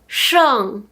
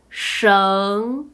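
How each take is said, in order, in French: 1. La hauteur chute brutalement du haut vers le bas. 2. La hauteur monte du milieu vers le haut.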